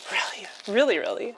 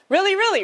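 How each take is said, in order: First: Said in the usual way. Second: Really, really, really pitched high and bright; higher excited take. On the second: Shown as a demonstration. Showing chat the right way, a high eager really. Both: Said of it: "that's the way to do that".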